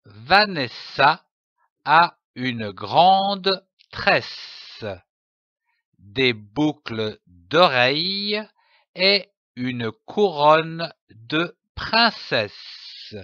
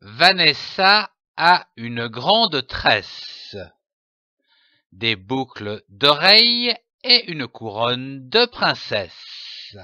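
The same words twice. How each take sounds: First: Slow, with a pause after each chunk of the sentence; syllable by syllable. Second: Flowing phrase with one clear pause after "tresse,"; pause only at punctuation. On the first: Teacher to young readers, slow and broken into syllables. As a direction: read it slowly, one piece at a time, like sounding out for a child. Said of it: "phrase découpée en syllabes". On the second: Teacher models fluent reading with a pause at the comma. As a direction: read smoothly, stopping only at the comma. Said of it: "laissez un temps de pause après chaque ponctuation".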